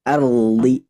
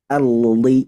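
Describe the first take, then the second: The two takes are said the same way.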